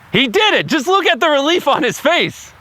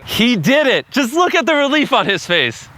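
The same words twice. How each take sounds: First: It is said with high energy. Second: It is said with lower energy.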